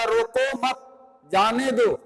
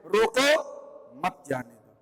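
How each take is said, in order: First: "रोको मत", short pause, then "जाने दो"; group "रोको मत" together, break, then "जाने दो"; pause after मत. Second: "रोको", pause, then "मत जाने दो" dropping low and soft; pause after रोको. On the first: Teacher giving the usual reading, with a break after "मत". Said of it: "यानी हमको तब यहाँ कामा लगाना होगा". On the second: Teacher moving the comma to reverse the meaning, pause after "रोको". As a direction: break after "रोको", run "मत जाने दो" together, lower. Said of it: "इस कामा को हटा करके यहाँ पे लगा देते हैं और उच्चारण". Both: Shown as a demonstration.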